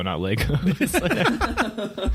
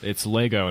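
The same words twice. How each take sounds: First: Legos drawn out slowly and high; mocking Legos, stretched, pitched way up; wrong pronunciation. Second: Lego said without an s; Lego, no s at the end; correct pronunciation. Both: Shown as a demonstration. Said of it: "it's Lego, not Legos".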